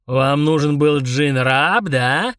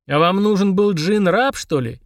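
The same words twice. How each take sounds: First: Slow ominous booming question; menacing giant. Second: Honestly puzzled question; sincerely surprised. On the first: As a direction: loom over the kids with threat. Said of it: "недобро переспросил Мурузух". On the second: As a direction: ask in genuine surprise. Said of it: "искренне удивился Фрундарок". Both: Acted.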